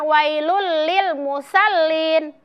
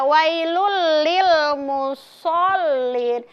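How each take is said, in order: First: The s sound is thin and light. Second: The s sound is thick and heavy. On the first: The speaker calls it wrong. "Bukan wailul lil musallin. Huruf sod sudah dibaca sa" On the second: The speaker calls it right. "Iya, wailul lil musallin"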